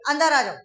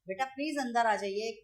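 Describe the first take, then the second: First: It is said in a rude, angry tone. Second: It is said in a sweet, gentle tone.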